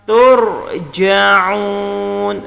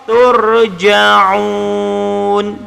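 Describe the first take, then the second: Both takes have the same delivery.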